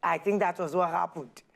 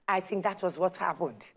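The two takes are said the same way.

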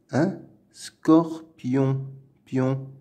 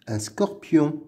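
First: "Un scorpion" slowly broken into separate syllables. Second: Said in the usual way. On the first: Shown as a demonstration. Teacher splitting a word for young readers, syllable by syllable. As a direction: pause between each piece of "Un scorpion".

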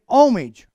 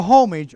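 First: HOMAGE said without the h, as "OM-ij"; silent h. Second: HOMAGE said with an audible h, as "HOME-ij"; sounded h. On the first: Preacher trying out the word HOMAGE, h left silent. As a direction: drop the h in HOMAGE, start on the vowel. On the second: Preacher offering another way to say HOMAGE, h sounded. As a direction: breathe the h at the start of HOMAGE. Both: Shown as a demonstration. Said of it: "or homage".

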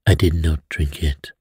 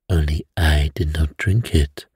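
First: Gently calm, not alarmed; gentle. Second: Placid. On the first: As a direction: ease them down, no fuss. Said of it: "he said gently". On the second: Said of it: "said a placid voice". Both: A narrator's reading.

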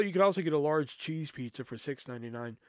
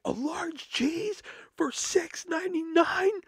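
First: Said in the usual way. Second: Very high, drawn-out outraged question; losing her mind. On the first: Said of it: "I was like". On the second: Retold or imitated. Customer hearing the pizza deal, shrieky mock outrage. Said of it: "This woman lost her fucking mind".

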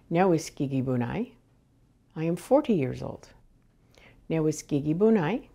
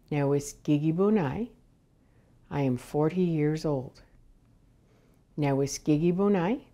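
The two takes are said the same way.

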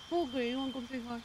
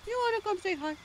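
First: Said in the usual way. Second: Very high cooing pet voice; pet talk. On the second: Real, not acted. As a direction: coo it sweetly to a pet. Same words cooed to the pet.

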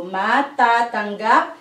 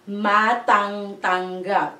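First: "ma, ta, tanggap" with the middle syllable an open ta, no ng; "ma, ta, tanggap" as a model, short open ta before tanggap; correct form demo. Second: "ma, tang, tanggap" with the whole syllable tang repeated, closing on ng; "ma, tang, tanggap" as a counterexample, ng kept in the middle syllable; wrong form demo. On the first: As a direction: say "ma, ta, tanggap" in parts, repeating only the ta. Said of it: "it's just the first two letters". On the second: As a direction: say "ma, tang, tanggap" in parts, doubling the full tang. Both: Shown as a demonstration.

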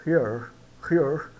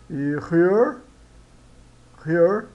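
First: "here" with a long I vowel; pronunciation demo. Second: "here" with an h like the Portuguese R; pronunciation demo. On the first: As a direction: stretch the ee in "here". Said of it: "Daí ele soa como I". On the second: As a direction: breathe the h in "here". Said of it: "no início dá o R português". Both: Shown as a demonstration.

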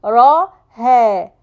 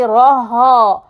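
First: راها as heavy "ra" then light "he"; correct light ending. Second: راها with both vowels dark, "raha"; mistaken heavy ending. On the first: Teacher models it for students, slow راها with light ending. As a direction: lighten the last vowel of راها to "heh". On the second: Teacher warns students off the error, heavy ending on راها. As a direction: end راها on a heavy backed "ha". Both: Shown as a demonstration. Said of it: "Don't say راها".

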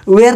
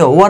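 First: The wrong way, वेयर like "wear"; wrong pronunciation. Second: The correct वर, short and clipped; right pronunciation. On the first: Teacher shows the wrong वेयर to students. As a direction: say वेयर with a long "wear" sound. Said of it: "वेयर नहीं पढ़ेंगे". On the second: Teacher gives students the correct वर. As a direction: say वर short, like "wur". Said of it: "वर पढ़ेंगे". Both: Shown as a demonstration.

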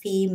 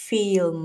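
First: "ฟิล์ม" as "feem", no L; "ฟิล์ม" with a long vowel straight into M; Thai-style film. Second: "ฟิล์ม" with the L sounded before M; "ฟิล์ม" as "fi-lm", both final consonants heard; English-style film. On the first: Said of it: "คุณจะมาฟิล์มไม่ได้นะ". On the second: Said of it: "คุณจะต้อง". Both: Shown as a demonstration.

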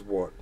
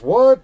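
First: Low, soft, falling delivery; deadpan question. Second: Loud, high rising yelp of disbelief; incredulous question. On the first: Streamer going over the comment one more time, deadpan. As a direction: let it drop away in disbelief. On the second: Streamer reading out an odd chat comment, incredulous. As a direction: shoot the pitch right up into a question. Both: Retold or imitated.

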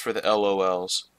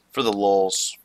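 First: "L O Ls" said as separate letter names; "L O Ls" as three letters; spelled-out LOLs. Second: "lols" said as one syllable; "lols" pronounced as a word, unspelled. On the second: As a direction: say "lols" as a single word, rhyming with dolls. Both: Shown as a demonstration. Says the abbreviation two ways.

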